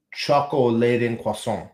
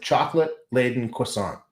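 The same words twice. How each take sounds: First: "Choco-laden" with an open "choco", no "t" sound before "laden"; foreign-style pronunciation. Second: Said in the usual way. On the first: Shown as a demonstration. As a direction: sound out "Choco-laden croissant" as a foreign one-word name. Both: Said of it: "it's like chocolate-laden croissant".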